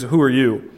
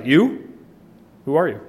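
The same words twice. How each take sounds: First: Said in the usual way. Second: "You?" as a scornful rise, then "who are you"; stress on you. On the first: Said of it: "in most of the translations it says". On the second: Shown as a demonstration. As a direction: sneer out "You?" first. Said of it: "first to emphasize".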